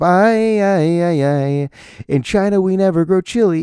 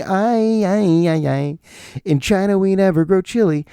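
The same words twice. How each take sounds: First: Loud, higher sung chant; sung, belt out the kids' chorus; singing the song. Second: Put-on shout-sing like kids on the floor; scream singing. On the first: Retold or imitated. Proving to his wife the song is real, loud sung chant. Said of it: "That's a real song". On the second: Kids in the multipurpose room, scream singing. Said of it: "scream singing".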